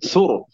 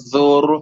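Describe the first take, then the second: First: The final consonant is held directly without bounce. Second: The final consonant is bounced with a swing. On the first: The speaker calls it right. "tapi sur" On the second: The speaker calls it wrong. "Tidak diayun, tidak sur"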